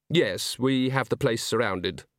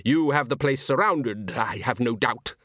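First: Said in the usual way. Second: Breezy villain, slightly lifted; brightly. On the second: A narrator's reading. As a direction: say it with mild cheerful mockery. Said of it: "said Salzella brightly".

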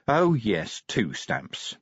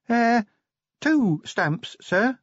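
First: Vimes grumbling. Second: Put-on much higher, timid young dwarf voice; young dwarf Cheery. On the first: Vimes voiced by narrator. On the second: Cheery correcting Vimes about the stamps, timid and high. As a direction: correct the boss gently, pitched up high. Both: A narrator's reading.

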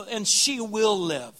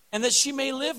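First: "will" leaned on, the line slowed right down; slow and firm, landing on "will"; stress on will. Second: Said in the usual way. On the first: Shown as a demonstration. Preacher corrects the quote to the church, pressing "will" slowly.

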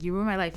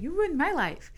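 First: Said in the usual way. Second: Echoes her line back, pitched higher; the man parroting her accusation, higher; mocking echo. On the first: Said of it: "I was like". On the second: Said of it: "And he's like".

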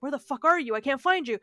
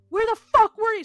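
First: Higher, louder retold frantic calling; a touch of frantic searching; mildly acted panic. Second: High, very loud imitated outburst; exploding in a retold scream; acted furious yell. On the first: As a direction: imitate a mother calling for her lost child. Mother searches for missing child. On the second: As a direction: yell it like a frantic mother at her child. Mother confronts the returned child.

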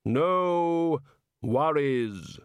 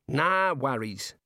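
First: Stretched, solemn Reaper attempting Aussie slang; Death. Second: Slow, higher Australian jailer; breezy Aussie warder. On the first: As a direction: intone each word separately as Death. Death borrows the local phrase. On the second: Acted. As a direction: brush it off with matey Aussie ease.

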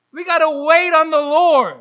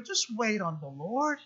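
First: "We gotta wait on the Lord" said much louder, proclaimed from the pulpit. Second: "Just wait on the Lord" said low and very soft, almost hushed. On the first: Real, not acted. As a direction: belt out "wait on the Lord" to the congregation. Preacher's loud contrast. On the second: Retold or imitated. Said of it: "but He's saying".

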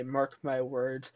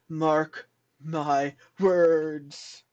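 First: Dramatic. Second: Very slow, drawn-out warning; dramatic effect. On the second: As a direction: stretch it out like an omen. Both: Shown as a demonstration. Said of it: "Had to add that dramatic effect".

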